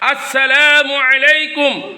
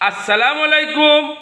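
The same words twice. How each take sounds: First: The greeting is pronounced fully and carefully. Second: The greeting's opening word is clipped and altered. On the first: May God's peace be upon you. The speaker calls it right. "আমরা সালাম দিব কেমনে?" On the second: May death be upon you. The speaker calls it wrong. "আপনার মৃত্যু হোক, এই সালাম হবে না, এটা ভুল।"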